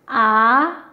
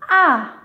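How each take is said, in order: First: The pitch rises from middle to high. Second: The pitch falls sharply from high to low. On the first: "qui part du milieu et qui monte vers le haut" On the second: "qui part du niveau cinq, le plus haut vers le plus bas"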